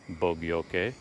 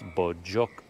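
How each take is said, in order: First: It is pronounced like 'bo-gyoke'. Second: It is pronounced like 'bo-jok'. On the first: The speaker calls it wrong. "It's not Bogyoke" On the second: The speaker calls it right. "it's pronounced Bojok"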